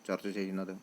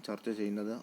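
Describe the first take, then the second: Both takes have the same delivery.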